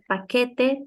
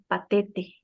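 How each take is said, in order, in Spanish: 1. La consonante del medio es un sonido K. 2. La consonante del medio es un sonido T. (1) "En vez de decirte, no sé, paquete" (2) "te dicen patete"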